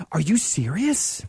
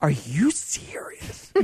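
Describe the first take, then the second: First: Slow, drawn-out mock astonishment; hammed-up incredulous question; ridiculous disbelief. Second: Very slow stage whisper; mock-horrified whispered question, drawn out; ridiculous disbelief. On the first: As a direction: play the gullible victim, stretching the question. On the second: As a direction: whisper it as if utterly stunned. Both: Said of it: "And I was ridiculous".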